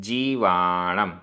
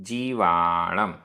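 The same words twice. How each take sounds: Both takes have the same delivery.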